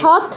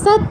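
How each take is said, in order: First: The word begins with a sh sound. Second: The word begins with a hissing s sound. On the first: The speaker calls it wrong. "এটা সৎ বলা যাবে না" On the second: The speaker calls it right. "সটা এটা দন্তস্ব"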